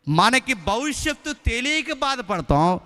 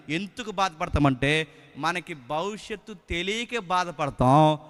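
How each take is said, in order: First: తెలియక stressed, higher and louder, slow; emphatic repeat. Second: Slow, measured sermon line at normal level; slow and even, no push on తెలియక; slow first statement. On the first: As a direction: repeat it slowly and lean hard on తెలియక. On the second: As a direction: lay it out slowly the first time. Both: Shown as a demonstration. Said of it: "దాన్ని మళ్ళీ చెప్తున్నాను".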